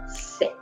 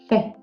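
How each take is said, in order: First: The consonant is a plain hissing s sound. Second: The consonant is said with the tongue between the teeth. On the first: This is how it sounds in Latin America. "la prononciation que tu vas écouter euh, dans toute l'Amérique latine" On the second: This is how it sounds in Spain. "la prononciation que tu vas écouter en Espagne"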